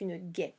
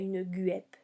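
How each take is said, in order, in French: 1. On n'entend pas de son U après le G. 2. On entend un son U après le G. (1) "on ne l'entend pas" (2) "c'est pas une guêpe"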